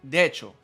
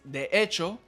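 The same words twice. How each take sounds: First: Syllables are dropped and the words run together. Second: Every syllable is said separately and in full.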